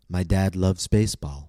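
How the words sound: The stress falls on the word baseball. All of the information is new. "I stressed baseball because almost all of the information was new"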